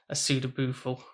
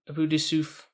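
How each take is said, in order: First: It is pronounced with a funny anglicized pronunciation. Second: It is pronounced with a French-sounding pronunciation. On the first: "what we sometimes refer to it in the class as" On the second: "I hope I'm going to say this right"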